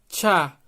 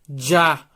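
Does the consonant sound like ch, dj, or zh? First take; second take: ch; dj. First: The consonant sounds like a light ch. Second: The consonant sounds like a dj. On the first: The letter starts a word. "um som como se fosse um som de T C H, um som de tchá" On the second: The letter is inside or ends a word. "um som como se fosse de D mais J"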